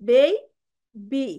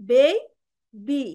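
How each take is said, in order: Both takes have the same delivery.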